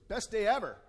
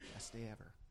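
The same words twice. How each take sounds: First: It is said loudly and boldly. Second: It is said quietly and shyly.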